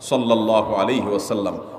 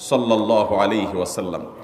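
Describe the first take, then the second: The two takes are said the same way.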